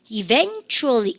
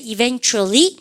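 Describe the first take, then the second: First: EVENTUALLY stretched slowly, falling at the end; syllable-by-syllable model pronunciation. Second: Said in the usual way. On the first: Shown as a demonstration. Teacher revealing the exam word, EVENTUALLY slowly spelt out by syllables. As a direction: draw out EVENTUALLY, e-VEN-tually. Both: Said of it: "발음을 갖다 보세요".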